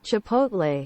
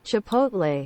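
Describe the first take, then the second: No difference in how they are said.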